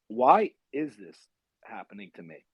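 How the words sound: It sounds like a sincere, reflective question.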